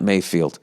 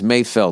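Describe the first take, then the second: First: The second syllable has a long 'ee' vowel. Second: The second syllable has a short 'e' vowel. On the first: The speaker calls it wrong. "not Mayfield" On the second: The speaker calls it right. "The guy's name is Mayfeld"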